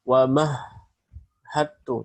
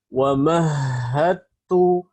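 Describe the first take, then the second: First: The sound breaks off at the doubled consonant. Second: The sound flows unbroken through the doubled consonant. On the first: The speaker calls it wrong. "jangan sampai suara ter terputus ya. Tidak ada putus suara di situ. Jadi bukan wa mahhattu" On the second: The speaker calls it right. "tapi suara harus berkesinambungan ya"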